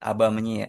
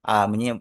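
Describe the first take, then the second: First: The preposition has two syllables before the pronoun. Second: The preposition is a single vowel before the pronoun. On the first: The speaker calls it right. "aba menye, bukan a menye atau ab menye" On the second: The speaker calls it wrong.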